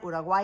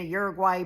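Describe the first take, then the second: First: It is said with a local, non-American pronunciation. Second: It is said with an American English pronunciation.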